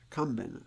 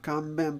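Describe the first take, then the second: First: The pitch is high on the first mora, then drops. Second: The pitch stays flat across the word. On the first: The speaker calls it right. "but Kanban" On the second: The speaker calls it wrong. "it's not Kanban"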